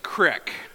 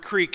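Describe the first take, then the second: First: The vowel is a short ih sound. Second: The vowel is a long ee sound.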